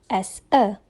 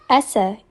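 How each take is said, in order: First: The two words are said separately. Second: The z runs straight into the next word. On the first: "instead of" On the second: "the last sound of the first word, which is z, is combined with the first sound of the next word"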